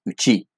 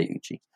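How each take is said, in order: First: "Uchi" said the Japanese way; Japanese pronunciation. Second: Said in the usual way. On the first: Shown as a demonstration. App creator showing the Japanese name, Japanese pronunciation of "Uchi". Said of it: "the Japanese pronunciation is Uchi". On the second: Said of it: "but I just say Uchi".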